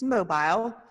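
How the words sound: It is said with an English pronunciation.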